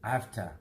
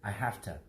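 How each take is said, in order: The two takes are said the same way.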